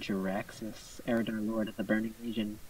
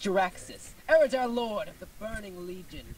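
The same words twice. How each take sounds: First: It is said flatly, with little energy. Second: It is said with lively, energetic enthusiasm. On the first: The speaker calls it wrong. "I didn't say that much with, with much enthusiasm" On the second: The speaker calls it right. "That's better"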